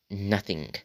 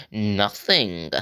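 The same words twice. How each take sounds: First: Said in the usual way. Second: Entitled dismissive Karen "Nothing.". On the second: Retold or imitated. Girl dismissing the kid she stabbed, entitled Karen voice. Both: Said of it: "in that Karen, entitled voice".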